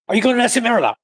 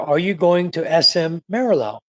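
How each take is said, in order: First: The question is spoken quickly. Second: The question is spoken slowly. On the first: The driver will not understand it. The speaker calls it wrong. "Don't, ... He won't understand that" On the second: The driver can really understand it. The speaker calls it right. "Say it slowly so he can really understand you"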